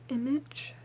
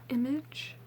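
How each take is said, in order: The two takes are said the same way.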